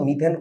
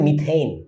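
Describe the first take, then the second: First: The second vowel is a pure e sound. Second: The second vowel glides like ay. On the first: The speaker calls it wrong. "বাঙালি মতো মিথেন কইও না" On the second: The speaker calls it right. "উচ্চারণটা actually মিথেইন, এইন আছে"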